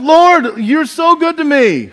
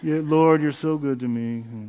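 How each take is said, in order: First: It is said joyfully, with enthusiasm. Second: It is said glumly, without enthusiasm.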